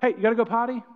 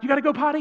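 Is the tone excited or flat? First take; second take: flat; excited. First: It is said in a flat, dull tone. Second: It is said with excited, high energy.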